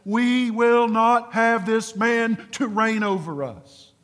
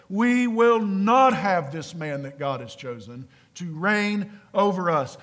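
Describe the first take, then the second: First: Slow, higher, louder refusal; rebellious servants rejecting their king, slow and defiant; defiant rebels. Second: Said in the usual way. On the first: Acted. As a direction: declare it slowly like stubborn subjects refusing a king. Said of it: "It sounded like this". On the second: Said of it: "Same voice".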